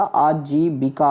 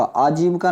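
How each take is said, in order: First: आजीविका said "aa-jee-bi-kaa", all syllables; correct pronunciation. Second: आजीविका said "aa-jib-ka", i dropped; wrong pronunciation. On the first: Teacher corrects students, आजीविका as "aa-jee-bi-kaa". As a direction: sound the bi in आजीविका. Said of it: "बिका". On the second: Teacher shows the error, आजीविका as "aa-jib-ka". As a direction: swallow the vowel before ka in आजीविका. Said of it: "आजीविका नहीं होता". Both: Shown as a demonstration.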